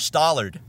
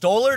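First: The first syllable sounds like 'sta'. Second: The first syllable sounds like 'stoll'. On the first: "Stoll or Sta?" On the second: "Stoll or Sta?"

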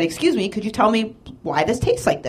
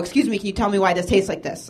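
First: The question sounds light and friendly. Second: The question sounds harsh and confrontational. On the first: The speaker is asking politely without complaint. The speaker calls it right. "I said it with a lightness in my voice" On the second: The speaker is complaining aggressively. The speaker calls it wrong. "I didn't go"

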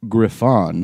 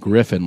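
First: The breed name is said the French way. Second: The breed name is said the English way. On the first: The speaker calls it right. "That's how you say it" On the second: The speaker calls it wrong.

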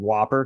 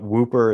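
First: The first vowel sounds like in 'hop'. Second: The first vowel sounds like in 'hoop'. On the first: The speaker calls it wrong. "Some people call it the Dungarvan Whopper because it's spelled the same way as the burger" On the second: The speaker calls it right. "Whooper is the right pronunciation"

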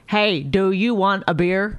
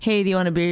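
First: The words are short, clipped and robotic. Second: The words flow smoothly and naturally.

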